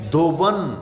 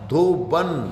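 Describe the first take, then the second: First: The second vowel is an 'a' sound. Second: The second vowel is an 'a' sound.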